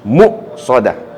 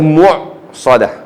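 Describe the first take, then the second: First: A glottal stop follows the first syllable. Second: A throaty ain sound follows the first syllable. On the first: The speaker calls it right. "Dia kena hamzah muqsadah" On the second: The speaker calls it wrong. "Salah. Tak boleh baca mu' itu ain"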